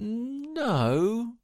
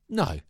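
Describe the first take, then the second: First: It sounds hesitant, as if still considering. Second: It sounds firm and decided.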